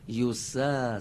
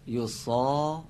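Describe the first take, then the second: First: The s is light and thin, like sin. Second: The s is heavy and emphatic, like sad. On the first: The speaker calls it right. "یوسا سین هست" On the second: The speaker calls it wrong. "یوسا میشه صاد"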